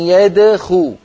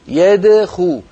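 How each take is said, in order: No difference in how they are said.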